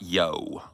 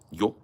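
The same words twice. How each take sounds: First: It starts with a hard, round English y. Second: It starts with a soft, short, j-like y. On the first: The speaker calls it wrong. "not a big round Y. Not yo" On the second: The speaker calls it right.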